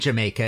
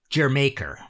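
First: The first syllable is said with a 'ja' sound. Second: The first syllable is said with a 'jer' sound. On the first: The speaker calls it wrong. "It's not really Jamaica" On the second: The speaker calls it right. "It's more like Jermaker"

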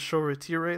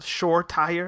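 First: The surname keeps its original, non-English pronunciation. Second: The surname is given an anglicized pronunciation. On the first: The speaker calls it right. "instead of Shore Tire" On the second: The speaker calls it wrong. "anglicized Shore Tire"

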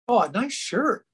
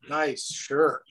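First: It sounds warm and genuinely complimentary. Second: It sounds mocking and sarcastic. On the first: The speaker really likes the shirt. "I was actually telling you I liked your shirt" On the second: The speaker seems not to like the shirt. "they read it as, nice shirt. You know, like, well, you don't like my shirt?"

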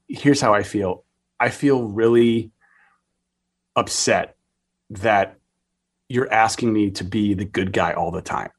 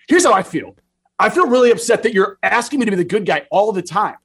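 First: It is said calmly and quietly. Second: It is said loudly, like shouting.

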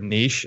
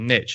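First: It is said the British way. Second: It is said the American way.

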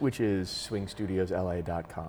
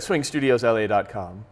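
First: It is said in a normal speaking voice. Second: It is said in a put-on announcer voice. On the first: The speaker calls it wrong. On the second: The speaker calls it right.

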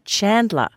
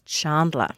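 First: The name is said with an American pronunciation. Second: The name is said with a non-American, Australian pronunciation. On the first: "the American pronunciation of Chandler" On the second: "Corey referred to Matthew Perry's character as Chandler"

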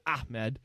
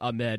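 First: The stress is on the first syllable. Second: The stress is on the second syllable. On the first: The speaker calls it right. "A little emphasis on the ah" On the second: The speaker calls it wrong. "I was right there with a lot of other people saying Ahmed"

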